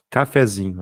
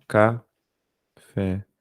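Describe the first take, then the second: First: Said in the usual way. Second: Very slow Cafezinho, with long pauses between ca, fé and zinho; syllable by syllable. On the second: Shown as a demonstration. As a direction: break Cafezinho into separate, drawn-out syllables. Splits example word into syllables.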